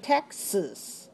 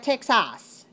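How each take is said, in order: First: The second syllable is weak and reduced. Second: The second syllable has a full, strong vowel. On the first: The speaker calls it right. "The second syllable is weak" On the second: The speaker calls it wrong. "So we don't say a Texas. Not in English"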